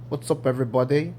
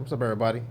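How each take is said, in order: First: It is said in a put-on British accent. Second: It is said in the speaker's natural accent.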